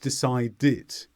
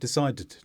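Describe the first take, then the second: First: The ending is said with an extra vowel. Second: The ending is said without an extra vowel. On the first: The speaker calls it right. "we do need that vowel sound" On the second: The speaker calls it wrong. "It's not"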